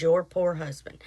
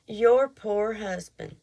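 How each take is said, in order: First: Mock pitying tone, lower; condescending. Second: Slow, pitying put-down; condescending. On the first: Man in store pitying her husband, mock condescending. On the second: Retold or imitated. Man in store pitying her husband, slow and condescending. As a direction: drawl it like he pities her husband. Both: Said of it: "it was the way he said it".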